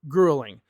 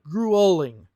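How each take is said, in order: First: The middle vowel is a light schwa. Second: The middle vowel is said strongly. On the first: "I would say gru uh uh schwa sound" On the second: "she might say it a little bit strong"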